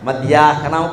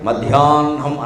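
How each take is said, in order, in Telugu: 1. h శబ్దం n ముందు వస్తుంది. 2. h శబ్దం n తర్వాత వస్తుంది. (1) "హా కింద నా ఒత్తు పెట్టినట్టు మాట్లాడకూడదు" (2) "మధ్యాహ్నం అనాలి"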